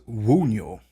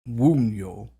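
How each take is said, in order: The two takes are said the same way.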